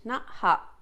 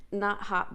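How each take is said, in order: First: Interrupted by a hiccup; hiccuping mid-phrase. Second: Said in the usual way. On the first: Real, not acted. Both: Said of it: "I got the hiccups again".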